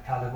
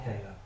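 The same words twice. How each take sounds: First: Caleb with a short flat 'a' as in 'cat', KAL-eb. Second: Caleb with a long 'a' as in 'cake', KAY-leb. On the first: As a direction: say Caleb as KAL-eb, first vowel like 'pal'. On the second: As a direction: say Caleb as KAY-leb, first syllable rhyming with 'day'. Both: Shown as a demonstration. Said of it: "whichever you prefer to say".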